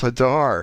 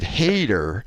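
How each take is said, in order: First: The name is said with a 'dar' ending. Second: The name is said to sound like 'hater'. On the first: The speaker calls it right. "It's Hadar" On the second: The speaker calls it wrong. "then you pronounced it hater"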